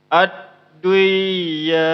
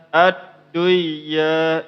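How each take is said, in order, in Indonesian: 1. N-nya melebur hilang ke dalam ya. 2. N-nya melebur hilang ke dalam ya.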